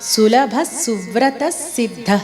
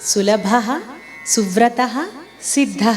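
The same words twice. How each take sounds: First: Words run together with the next s doubled. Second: Each word is said apart with its own ending. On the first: "కలిపి చెప్పేటప్పుడు ... విసర్గను తీసివేసి తర్వాత వస్తున్న సాకి ఒత్తిచ్చి నొక్కి పలకాలి" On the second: "విడదీసి పలికేటప్పుడు"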